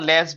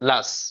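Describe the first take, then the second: First: The vowel is a full, clear e sound. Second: The vowel is a short, reduced sound. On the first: The speaker calls it wrong. "আমরা লেস বলি" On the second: The speaker calls it right. "উচ্চারণের সাথে কি হয়? লাস"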